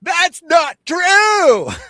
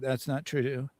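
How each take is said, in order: First: It is said with exaggerated, overdone emphasis. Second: It is said hesitantly and softly.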